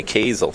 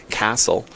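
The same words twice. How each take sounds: First: Kazel with a long A, "KAY-zel"; long-A pronunciation. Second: Castle with a short A, like English castle; short-A pronunciation. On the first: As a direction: say Kazel with the vowel of "day". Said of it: "it's a long A". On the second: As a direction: say Castle with the flat vowel of "cat". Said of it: "they say Castle". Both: Shown as a demonstration.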